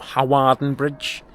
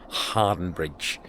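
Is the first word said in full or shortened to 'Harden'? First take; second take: full; shortened. First: The first word is said in full, as spelled. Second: The first word is shortened to sound like 'Harden'. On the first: The speaker calls it wrong. "Not Hawarden Bridge" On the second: The speaker calls it right.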